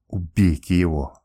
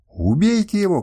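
First: Lower, slow hissing order; the princess seething at the insolent captain; hissed. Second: Higher, louder outraged cry; furious princess demanding his death; shouting. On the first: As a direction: hiss it with cold hatred. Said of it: "прошипела она". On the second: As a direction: shout the order at the guards. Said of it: "кричала она". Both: A narrator's reading.

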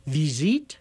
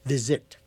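First: Visite said the Paris way, "vee-ZEET" with a long ee; French visite. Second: Visit with a short i as in English it, "VIZ-it"; Canadian visit. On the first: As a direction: give visite a crisp French ee vowel. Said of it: "as the French would say". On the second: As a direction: clip the vowels in visit short, Quebec style. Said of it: "the Canadians would say". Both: Shown as a demonstration.

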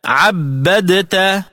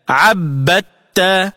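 First: Slow "عبدت" with D sounded before T; unassimilated dal. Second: Slow "عبدت" as 'abbatta; dal into ta. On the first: Tajweed teacher quoting the word, D kept in "عبدت". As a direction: separate the D and T, 'abbad-ta, in "عبدت". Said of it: "فتلفظ هكذا". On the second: Tajweed teacher showing the second letter's sound, TT in "عبدت". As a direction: swallow the D into a held TT in "عبدت". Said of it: "من جنس الحرف الثاني". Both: Shown as a demonstration.

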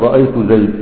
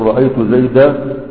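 First: "زيد" cut on a still dal, no alif; Rabi'a pause. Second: "زيدا" ending on a long alif; standard alif pause. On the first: ("زيد" بالسكون على لغة ربيعة) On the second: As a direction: let "زيدا" open onto a full alif. ("زيدا" بالألف) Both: Shown as a demonstration. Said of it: "هتقف تقول رأيت زيد".

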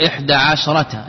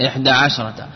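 No difference in how they are said.

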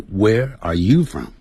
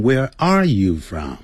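First: "you" raised and leaned on, falling after; stress on YOU. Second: "are" punched, "you" left unstressed; stress on ARE. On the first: Teacher shows students the correct question, stress on "you". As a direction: lift the voice on "you" in Where are you from. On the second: Teacher shows students what not to say, stress on "are". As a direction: lean wrongly on "are" in Where are you from. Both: Shown as a demonstration. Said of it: "不要念成".

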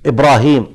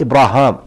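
First: "إبراهيم" with a long ee before the m; قراءة بالياء. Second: "إبراهام" with a long aa before the m; قراءة بالألف. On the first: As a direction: end "إبراهيم" on -heem. (نطق «إبراهيم» بياء ممدودة قبل الميم) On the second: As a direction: end "إبراهام" on -haam. (نطق «إبراهام» بألف ممدودة قبل الميم) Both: Shown as a demonstration. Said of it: "في قراءة إبراهام".

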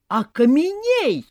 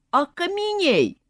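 First: High, slow, drawn-out spell; shout. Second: High, drawn-out magic yell; terrible cry. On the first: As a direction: yell the spell again. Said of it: "снова закричал Вася". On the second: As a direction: cast the spell with a scream. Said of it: "под страшный крик". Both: A narrator's reading.

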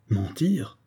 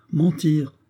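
First: An officer stung at being called a liar; stunned echo. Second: A grenadier mocking the officer's outrage; insolent retort. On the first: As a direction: echo the word in shocked disbelief. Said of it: "répéta Eric en rougissant". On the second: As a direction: throw the word back insolently. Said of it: "répéta le grenadier avec une insolence". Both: A narrator's reading.

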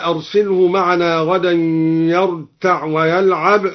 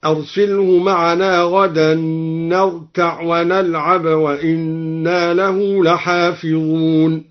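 First: Said in the usual way. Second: Slow chant, نرتع ونلعب both starting with n; noon of plural. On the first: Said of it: "قرأ الدوري بنون الجمع". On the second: Shown as a demonstration. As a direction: recite slowly, sounding "narta'" and "nal'ab" for نرتع ونلعب. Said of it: "بنون الجمع في الفعلين". (تلاوة مرتلة بنون الجمع في نرتع ونلعب)

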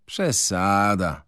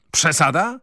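First: Slow, falling dismissal; slow flat dismissive Przesada. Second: Przesada? thrown back high and rising; indignant echo, pitched up; bristling retort. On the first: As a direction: wave it off slowly. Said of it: "rzekł Koruta". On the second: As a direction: bristle and fling the word back. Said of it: "zaperzył się Wroński". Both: A narrator's reading.

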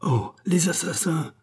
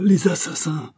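First: High, startled cry of horror; a sudden high outcry at the killing; horrified cry. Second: Loud, high repeated cry; the cry again, now full out and loud; louder cry. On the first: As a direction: gasp it out in shock. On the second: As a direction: shout it out, fully horrified. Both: A narrator's reading. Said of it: "s'écria le docteur".

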